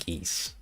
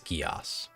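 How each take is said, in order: First: It sounds just like the word geese. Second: It does not sound like the word geese. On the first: The speaker calls it wrong. "I always just pronounced it geese, like the animal" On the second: The speaker calls it right. "So it's Gias"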